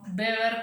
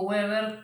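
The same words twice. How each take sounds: First: The name begins with a short B sound. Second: The name begins with an English W sound. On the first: The speaker calls it right. "como si fuera una B corta" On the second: The speaker calls it wrong. "como si fuera una W como en inglés"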